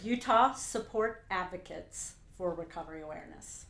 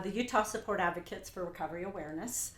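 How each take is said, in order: First: It is said slowly and carefully. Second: It is said at a normal conversational pace.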